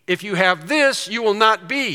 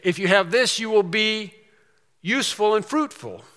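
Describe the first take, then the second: First: "not" hit with a rising tune; stress on not. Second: "will" leaned on, no "not"; stress on will. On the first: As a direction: lean into "not" to show what you will not be. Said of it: "He's talking about what you will not be". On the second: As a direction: say "will" firmly as the positive version. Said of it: "He could say". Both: Shown as a demonstration.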